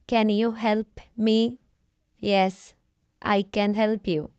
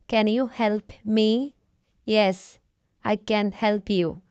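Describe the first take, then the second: No difference in how they are said.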